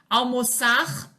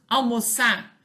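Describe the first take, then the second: First: The final R sound is pronounced. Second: The final R sound is dropped.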